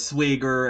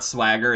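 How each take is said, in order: First: The vowel is raised, in a Minnesotan way. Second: The vowel is the ordinary American flat a. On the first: "it's swigger" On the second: "it's not swagger"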